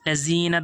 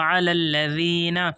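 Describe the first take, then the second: First: The middle consonant is a plain z sound. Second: The middle consonant is a th-like sound. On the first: The speaker calls it wrong. "दोस्त ऐसे नहीं पढ़ेंगे" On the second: The speaker calls it right. "दाल है"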